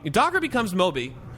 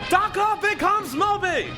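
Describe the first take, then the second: First: It is said in a plain conversational voice. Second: It is shouted in an old-time announcer voice.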